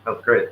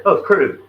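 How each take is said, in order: First: Said in the usual way. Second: Higher and louder, amazed; excited repeat. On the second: Real, not acted. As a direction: belt it out again, higher and louder. Repeats phrase, second more emphatic.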